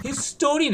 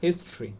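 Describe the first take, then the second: First: হিস্টোরি in three syllables, "his-TO-ri"; higher, wrong-way হিস্টোরি; common mispronunciation. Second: হিস্ট্রি in two syllables, "HIS-tri"; no middle vowel in হিস্ট্রি; low, compact হিস্ট্রি; correct pronunciation. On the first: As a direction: sound the middle "o" in হিস্টোরি. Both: Shown as a demonstration. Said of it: "হিস্টোরি না".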